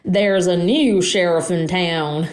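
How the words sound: It is said in a put-on southern accent.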